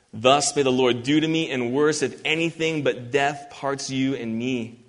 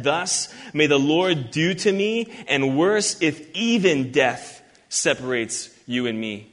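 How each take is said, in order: First: Said in the usual way. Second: "Thus may the Lord do to me" read slowly and deliberately; slow down and weigh each word of the oath; better rendering. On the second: Shown as a demonstration. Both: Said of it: "So this statement is better said".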